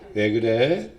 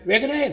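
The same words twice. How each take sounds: First: It is said at a lower pitch. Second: It is said at a higher pitch.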